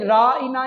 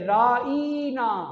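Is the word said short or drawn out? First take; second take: short; drawn out. First: The word is said short and plain. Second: The word is stretched and drawn out. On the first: Please look at us and attend to us. The speaker calls it right. "इधर सहाबा कहते" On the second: An insult calling the listener a shepherd. The speaker calls it wrong. "जरा लंबा करके पढ़ते, जरा खींच के पढ़ते"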